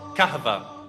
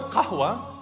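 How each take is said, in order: First: The middle consonant is a v sound. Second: The middle consonant is a w sound. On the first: "So they started to call it kahva" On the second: "the word qahwa"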